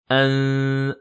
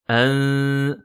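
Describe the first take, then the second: No difference in how they are said.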